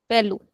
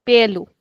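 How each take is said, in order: First: "Pelu" with a brief, unextended first vowel; short e. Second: "Pelu" with the first vowel held a little; unaccented vowel. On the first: Teacher showing the class the accented word, short e. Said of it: "We will not extend the sound". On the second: Teacher showing the class the word without accent, first vowel held. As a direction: say "Pelu" with a longer, drawn e. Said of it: "This we will call pelu". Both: Shown as a demonstration.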